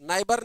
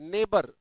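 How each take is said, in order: First: The first syllable sounds like 'nigh'. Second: The first syllable sounds like 'nay'. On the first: The speaker calls it wrong. "नाइबर नहीं पढ़ते" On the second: The speaker calls it right. "ये ने है"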